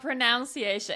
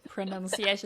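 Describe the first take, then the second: First: The second syllable sounds like 'noun'. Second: The second syllable sounds like 'nun'. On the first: The speaker calls it wrong. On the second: The speaker calls it right.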